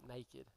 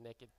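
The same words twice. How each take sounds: First: The word is said in a standard accent. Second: The word is said in a Southern accent. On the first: "not naked" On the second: "Southern again"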